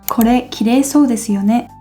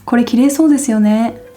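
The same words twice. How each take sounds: First: It is said in a careful, full way. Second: It is said in a casual, reduced way. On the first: This is how it is taught in textbooks. "if you learned it in a textbook as" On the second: This is how people talk in everyday conversation. "in a real conversation, a Japanese person might say"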